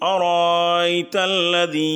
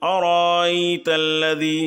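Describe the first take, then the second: Both takes have the same delivery.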